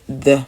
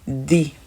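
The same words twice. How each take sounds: First: The word ends with an uh vowel. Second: The word ends with an ee vowel. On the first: "au lieu de" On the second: "avec la prononciation I à la fin"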